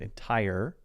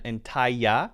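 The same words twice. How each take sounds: First: The word is said without a Y sound. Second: The word is said with a Y sound. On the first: The speaker calls it right. "instead of entire" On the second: The speaker calls it wrong. "so it's a Y sound"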